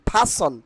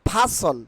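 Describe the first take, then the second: The two takes are said the same way.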